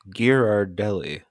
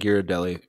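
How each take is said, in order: First: The second R sound is pronounced. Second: The second R sound is left out. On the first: "I have never pronounced that second R" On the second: "I have never pronounced that second R"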